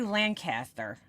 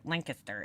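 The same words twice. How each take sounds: First: It is said with a New York accent. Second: It is said the local Pennsylvania way. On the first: "that's how it would come out in my New York accent" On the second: "When you go down to Pennsylvania, that's how they say it"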